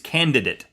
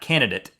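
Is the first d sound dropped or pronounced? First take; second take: pronounced; dropped. First: The first d sound is pronounced. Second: The first d sound is dropped. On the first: The speaker calls it right. "There's two D's" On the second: The speaker calls it wrong. "It's not candidate"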